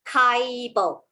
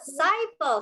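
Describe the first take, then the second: First: The word begins with a hard K sound. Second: The word begins with a soft S sound. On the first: The speaker calls it wrong. "you may read this as Kaibo, which is wrong" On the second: The speaker calls it right. "Very good"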